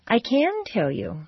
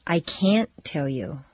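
First: "can" stretched out and pitched high; slow, emphatic rise on "can". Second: "can't" drawn low, then a clear stop; slow, firm "can't" with a cut-off T; emphatic can't. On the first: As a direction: lean long and high on "can", then drop for "tell you". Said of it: "Yes, you can". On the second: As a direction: lean on "can't" and pause before "tell you". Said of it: "or no, you can't". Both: Shown as a demonstration.

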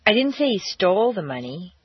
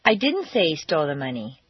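First: "stole" punched hard, rest of the sentence light; stress on STOLE. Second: "didn't" hit hard and held, the rest lower; stress on DIDN'T. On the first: Teacher demo for students, heavy stress on "stole". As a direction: lean into the word "stole" to show he only borrowed it. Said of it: "indicate that he borrowed the money and didn't steal it". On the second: Teacher demo of a flat denial, stress on "didn't". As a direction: deny it by punching "didn't". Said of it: "indicate that you're denying having said that he stole it". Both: Shown as a demonstration.

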